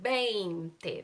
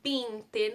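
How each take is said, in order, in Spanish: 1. La primera sílaba tiene un diptongo e-i. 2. La primera sílaba tiene un solo sonido vocálico. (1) "Hay que pronunciar la E y la I y al final es otra E" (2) "no es veinte"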